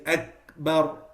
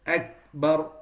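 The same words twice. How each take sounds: No difference in how they are said.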